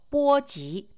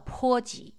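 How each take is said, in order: First: The first syllable begins with a b sound. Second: The first syllable begins with a p sound.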